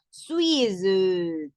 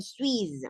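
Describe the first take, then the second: First: "Suisse" with an "euh" dragged after the s; slow wrong take, "Suisse" trailing into a vowel; pronunciación errónea. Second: "Suisse" ending on a z sound, no vowel; pronunciación correcta. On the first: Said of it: "ni mucho menos Suisse". ("Suisse" con "euh" final alargada) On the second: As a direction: correct French take, "Suisse" as one syllable. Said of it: "entonces va a ser Suisse". ("Suisse" terminado en zeta, sin vocal) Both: Shown as a demonstration.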